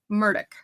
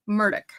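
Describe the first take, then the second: First: The name is said with a South Carolina pronunciation. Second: The name is said with a South Carolina pronunciation.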